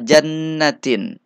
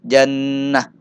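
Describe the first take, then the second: First: The word ends with a t sound and a vowel. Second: The word ends with a silent h sound. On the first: The reading continues without a stop. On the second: The reader stops on this word.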